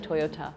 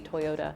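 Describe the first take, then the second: First: The middle consonant is a hard T sound. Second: The middle consonant is a soft D sound. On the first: "instead of" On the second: "soften everything to be a D"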